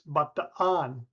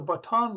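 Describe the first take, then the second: First: The two A vowels are said separately. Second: The double A is one long vowel. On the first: The speaker calls it right. "it always has to be separated" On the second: The speaker calls it wrong. "most Americans learned to say it ... thinking the double A was just a long A"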